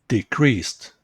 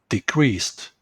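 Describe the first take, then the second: No difference in how they are said.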